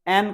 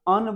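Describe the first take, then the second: First: The vowel is full and clear. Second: The vowel is short and reduced. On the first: The speaker calls it wrong. "एन नहीं बोलना है" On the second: The speaker calls it right. "अन बोलना है"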